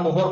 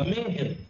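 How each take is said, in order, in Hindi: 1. पहला स्वर 'o' की ध्वनि है। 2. पहला स्वर 'e' की ध्वनि है।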